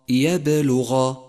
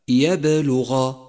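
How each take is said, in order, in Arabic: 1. حرف b فيه ارتداد صوتي قوي. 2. حرف b فيه ارتداد صوتي قوي.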